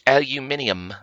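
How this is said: It is said the British way, five syllables.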